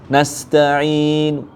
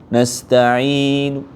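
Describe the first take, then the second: The two takes are said the same way.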